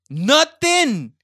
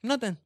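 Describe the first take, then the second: First: High, loud drawn-out Nothing; indignant yell of Nothing; outraged shout. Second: Said in the usual way. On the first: Acted. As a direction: blast the word Nothing. in disbelief. Repeats the word, then shouts it.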